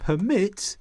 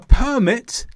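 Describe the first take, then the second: First: The stress is on the second syllable. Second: The stress is on the first syllable. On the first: It names the act of allowing. "the verb permit is the activity of allowing" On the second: It names a document allowing entry. "A permit lets you get into a place"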